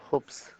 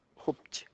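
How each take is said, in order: First: The name ends with an 's' sound. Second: The name ends with a 'ji' sound. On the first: "나 그냥 홉스라고 읽어" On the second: "홉지라고 읽는 사람들도 있어"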